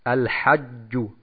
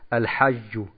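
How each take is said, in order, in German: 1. Das j ist ein hartes, stark gepresstes dj. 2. Das j ist ein weiches zh wie im Französischen. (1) "das arabische Wort für die Pilgerfahrt ist Al-Hajju" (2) "Und wir sagen nicht Al-Hajju"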